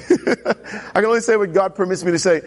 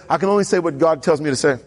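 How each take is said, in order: First: Sheepish laugh. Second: Said in the usual way. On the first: Retold or imitated. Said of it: "After the last encounter, right". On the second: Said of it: "After the last encounter".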